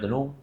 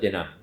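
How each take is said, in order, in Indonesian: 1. Suku kata kedua punya vokal 'u'. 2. Suku kata kedua punya vokal 'a'. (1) "Pulau Pinang tenung" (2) "Kedah kata tenang"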